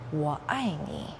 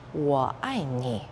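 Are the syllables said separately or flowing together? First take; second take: flowing together; flowing together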